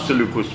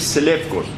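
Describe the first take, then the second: First: The middle syllable is said as 'lu'. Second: The middle syllable is said as 'lef'. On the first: This is the form that came through French. "به فرانسه ما سلوکوس میگه" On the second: This is the Greek form of the name. "یونانی میگه سلفکوس"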